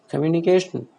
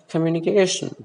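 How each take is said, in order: Both takes have the same delivery.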